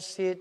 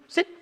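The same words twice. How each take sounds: First: It is said in a flat, uninflected voice. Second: It is said in a lifted, upbeat voice. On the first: The speaker calls it wrong. "They're trying to train the dog and it's come here" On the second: The speaker calls it right. "That's the tone I want"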